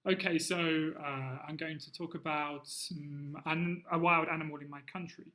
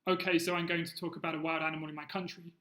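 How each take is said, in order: First: Short pauses and fillers separate each phrase. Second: The sentence runs on without pauses between phrases.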